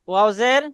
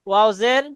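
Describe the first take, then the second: The two takes are said the same way.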